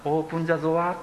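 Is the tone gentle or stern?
gentle. It is said gently, like a request.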